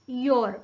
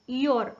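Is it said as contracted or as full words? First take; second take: contracted; contracted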